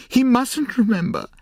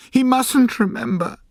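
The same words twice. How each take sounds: First: High, loud anguished "He mustn't remember", much higher; crying out. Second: High, loud anguished plea, much higher; crying out. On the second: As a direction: cry it out in a high, desperate voice. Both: A narrator's reading. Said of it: "she cried".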